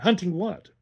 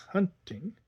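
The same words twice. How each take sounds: First: Eager question, a bit louder; the boy presses her, keen to know; excited. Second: Rising, eager repeat of "Hunting?"; eager boy catching on the word; excited echo. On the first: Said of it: "with excitement". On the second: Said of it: "he repeated with excitement". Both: A narrator's reading.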